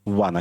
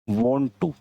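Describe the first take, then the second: First: The words are run together as one word, wanna. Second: Two separate words, want and to, are said. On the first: "इसे हम मिला के वाना बोल देते हैं" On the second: "ये वॉन्ट होता है टू"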